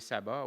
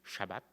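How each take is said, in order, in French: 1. Le mot commence par un son S simple. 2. Le mot commence par un son SH. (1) "je vais rester avec la prononciation euh, française" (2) "la prononciation euh, hébraïque"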